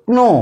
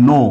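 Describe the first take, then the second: First: ক্নো with the k sounded before n; spelled-out wrong pronunciation. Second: নো with a silent k, just no; correct pronunciation. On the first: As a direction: say ক্নো sounding every letter, k and n. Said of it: "এর উচ্চারণ হতো". (অক্ষর ধরে ক্নো, ক আর ন দুটোই উচ্চারণ) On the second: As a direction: say নো plainly, k dropped. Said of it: "কিন্তু আমরা কি বলি?". (সঠিক উচ্চারণ নো, ক নীরব) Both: Shown as a demonstration.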